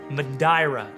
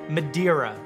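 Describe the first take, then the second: First: The name is said with a Portuguese pronunciation. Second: The name is said with an English pronunciation.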